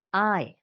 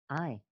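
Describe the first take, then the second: First: "I" alone, louder, claiming the space; weighted "I". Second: "I" alone, lower and softer, inward. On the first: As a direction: say "I" as if claiming the room. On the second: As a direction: say "I" quietly, to yourself. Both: Shown as a demonstration. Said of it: "then just the word I".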